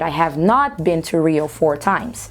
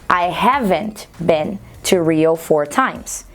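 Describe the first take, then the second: First: Not is said separately and stressed. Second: Have and not are joined as haven't. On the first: The denial is more emphatic and incisive. "um pouco mais incisiva, eu posso manter essas duas palavras separadas" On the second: A plain, neutral denial. "esse haven't é a junção das duas palavras"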